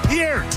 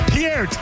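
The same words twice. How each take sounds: First: The vowel sounds like the one in beer. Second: The same.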